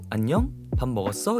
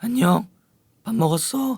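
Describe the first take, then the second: First: It is said softly with light breath. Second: It is said loudly with forceful breath. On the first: The speaker calls it right. "저음은 호흡이 어때요? 고음에 비해 약하겠죠?" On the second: The speaker calls it wrong. "이런 사람이 어딨어"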